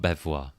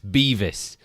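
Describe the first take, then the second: First: The name sounds French, ending like vwah. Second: The name sounds English, like Beavis. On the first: The speaker calls it wrong. "It's not Bevois" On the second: The speaker calls it right. "I've just been corrected. It's Beavis"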